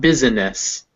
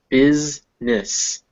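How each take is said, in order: First: A vowel is sounded between the S and N. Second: The S and N are joined with no vowel. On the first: The speaker calls it wrong. "not business" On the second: The speaker calls it right. "the I makes no sound"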